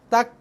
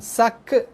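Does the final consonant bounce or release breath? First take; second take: breathy; bouncing. First: The final consonant releases breath without bouncing. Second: The final consonant bounces with an echoing release. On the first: The speaker calls it right. "Bunyikan dia dengan sifat huruf yang betul" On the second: The speaker calls it wrong. "itu dah jadi kol-kolah dah"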